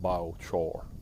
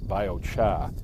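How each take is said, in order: First: It is said in a Southern accent. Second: It is said in a New England accent.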